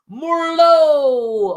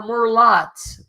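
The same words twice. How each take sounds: First: "Murlo" ending on a long open O; silent final T. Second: "Murlot" ending on a hard T; sounded final T. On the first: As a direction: draw out the last vowel of "Murlo", no T. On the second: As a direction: pronounce the T at the end of "Murlot". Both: Real, not acted. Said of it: "hopefully I spelled that or pronounced that correctly".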